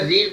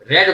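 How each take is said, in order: First: The vowel is a long ee sound. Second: The vowel is a short e sound. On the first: It is the present form of the verb. "First फार्म में रीड बोला जाएगा" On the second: It is the past or past participle form. "Second और third फार्म में रेड बोला जाएगा"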